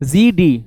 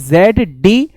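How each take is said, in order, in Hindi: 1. अक्षर को 'zee' के रूप में उच्चारित किया जाता है। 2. अक्षर को 'zed' के रूप में उच्चारित किया जाता है। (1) "उसका असल जो प्रोनाउंसिएशन है वो है जी" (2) "जेड जो है हिंदी मीडियम वाले हम पहले बोलते थे, लेकिन बाद में हमें पता लगा जेड एक गलत है"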